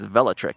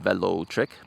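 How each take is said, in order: First: The name is said quickly, syllables run together. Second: The name is said slowly, syllables kept separate. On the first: "it's Velotric if you say it quickly" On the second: "Individually, you can call it Velotric"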